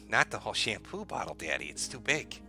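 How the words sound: It is said in a sexy voice.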